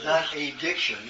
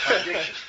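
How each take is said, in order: First: "addiction" split as "a diction", first syllable a separate "ay"; wrong-meaning "addiction" with a full, separate first vowel; split into two words. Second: "addiction" run together with an unstressed "uh" at the start; "addiction" with a short, weak first vowel; joined as one word. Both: Shown as a demonstration. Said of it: "Two words together".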